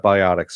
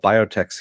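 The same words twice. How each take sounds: First: "biotics" with an "ot" in the middle and "iks" at the end; biotics pronunciation. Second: "biotechs" with a long o, ending like "techs"; biotechs pronunciation. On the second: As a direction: say "biotechs" as bio-teks. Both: Retold or imitated. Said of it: "Completely different spelling".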